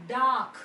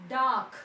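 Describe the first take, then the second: No difference in how they are said.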